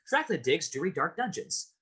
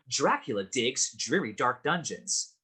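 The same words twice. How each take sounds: First: It is said very fast. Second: It is said a little faster.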